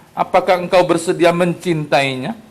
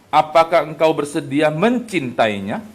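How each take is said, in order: No difference in how they are said.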